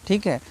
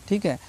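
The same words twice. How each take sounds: No difference in how they are said.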